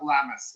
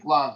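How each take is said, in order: First: The word is said as two syllables. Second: The word is said as one syllable. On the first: The speaker calls it wrong. "not glamis" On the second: The speaker calls it right. "Glams, not glamis"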